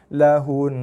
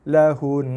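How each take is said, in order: No difference in how they are said.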